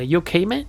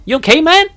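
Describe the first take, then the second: First: Said in the usual way. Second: Much higher and louder, pleading; high loud junkie voice. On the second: Acted. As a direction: pitch it way up, desperate.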